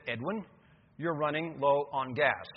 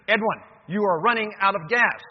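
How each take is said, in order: First: Measured, unhurried car warning; car's little voice. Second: Loud, higher, insistent warning; harsher car voice. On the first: Car voice first warning Edwin about fuel, calm and slow. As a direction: calmly alert the driver, word by word. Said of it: "the little voice said". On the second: Car voice warning Edwin a second time, harsher. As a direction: raise the voice sternly at the driver. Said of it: "the voice was a little bit harsher". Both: Acted.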